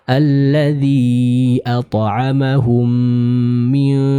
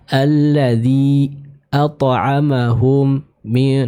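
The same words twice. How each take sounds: First: The phrase flows smoothly in one breath. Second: The phrase is broken into choppy pieces. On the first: The speaker calls it right. "dibaca dengan satu nafas ... mengalir tanpa terputus" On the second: The speaker calls it wrong. "jangan sampai suara kita terpotong-potong ... jangan seperti itu"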